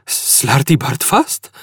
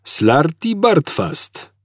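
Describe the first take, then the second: First: Slow, rising disbelieving echo; incredulous echo. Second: Slow, gentle repeat. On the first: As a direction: repeat it as if it can't be. Arthur echoing in disbelief. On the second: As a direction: patiently say it again. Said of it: "powtórzył łagodnie stary". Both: A narrator's reading.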